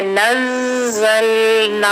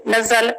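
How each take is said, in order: First: नज़लना slow with the ज़ held long; correct tajweed. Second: नज़ल said short, shadda not held; wrong way. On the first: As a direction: hold the shadda in नज़लना. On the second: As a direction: rush नज़ल without the hold. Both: Shown as a demonstration. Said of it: "नज़ल नहीं पढ़ेंगे".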